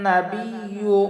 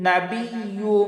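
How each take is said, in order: No difference in how they are said.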